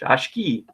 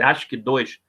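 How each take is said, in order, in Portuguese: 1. A palavra termina com um som simples de 'kee'. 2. As letras finais são lidas como o número dois. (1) "tem nada de dois" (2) "eu já vi gente falar assim"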